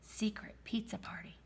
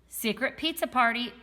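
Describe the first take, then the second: First: It is whispered quietly. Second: It is said loudly.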